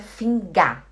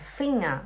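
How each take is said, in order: First: The g after the n is clearly pronounced. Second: The ng is said as one nasal sound. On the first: The speaker calls it wrong. "Não é Finger" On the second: The speaker calls it right. "é Finger"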